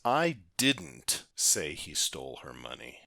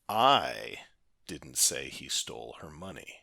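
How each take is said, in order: First: The stress falls on the word didn't. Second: The stress falls on the word I. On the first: It was absolutely never said. "the emphasis on didn't means absolutely not" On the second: Someone else said it, not me. "put the emphasis on the first word, that being the letter I"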